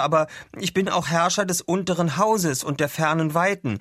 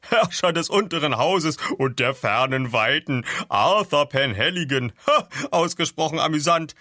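First: Higher-pitched, sincere self-introduction; earnest declaration. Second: Loud, high, amused character voice; laughing mockery. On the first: Acted. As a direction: state your titles in all seriousness. Arthur earnestly states his titles. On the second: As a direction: repeat the grand titles as a huge joke. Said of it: "brach er in schallendes Gelächter aus".

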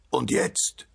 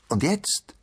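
First: Choked, muffled question without full voice; stifled voice. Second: Higher, voiced call with rising end; called-out question. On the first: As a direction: ask as if smothered under earth. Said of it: "mit erstickter Stimme". (mit erstickter Stimme) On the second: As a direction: call it out expectantly, pitch jumping up. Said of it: "rief das Nüsschen". (hoch gerufene Frage) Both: A narrator's reading.

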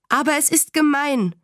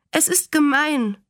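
First: Put-on high, indignant child's protest; mildly acted cry of unfairness, not truly shouted; protestierender Aufschrei. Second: Put-on high-pitched child's protest; mildly tearful, understated acted complaint; schluchzend. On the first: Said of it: "schrie Fern". (kindlich empört aufbegehren) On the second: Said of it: "schluchzte sie". (kindlich klagend, leicht weinerlich) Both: A narrator's reading.

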